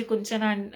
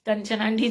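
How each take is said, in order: First: कुंचन said with u in the first syllable, kun-chan; the name slips out as कुंचन, cut off mid-word; slipped name. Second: कंचन said carefully with a short a, kan-chan; apologetic correction to कंचन; corrected name. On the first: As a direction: habitual slip saying कुंचन instead of कंचन. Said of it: "कुंचन कहते हैं मैं हमेशा". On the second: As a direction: fix the name: clear कंचन aunty. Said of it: "sorry". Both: Real, not acted.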